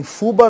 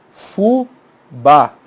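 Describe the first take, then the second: First: Fuba stressed on FU, ending weak; FU-ba, quick, first syllable higher. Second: Fubá split slowly, FU then a strong BÁ; fu-BÁ, final syllable stressed; stress on last syllable. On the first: Teacher rejecting a wrong form, fuba stressed on FU. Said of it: "Isso não é, não é rap". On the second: Teacher locating the tonic syllable, fubá slowly stressed on BÁ. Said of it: "Tá aqui a sílaba tônica". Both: Shown as a demonstration.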